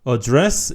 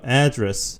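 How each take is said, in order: First: The stress is on the second syllable. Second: The stress is on the first syllable. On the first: It is a different word with another meaning. "이렇게 하면은 의미가 다른 어, 단어고요" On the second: It means the place where someone lives. "강세가 요 앞에 a에 있다는 것을 기억해 주시고요. address 이러면은 주소라는 의미고요"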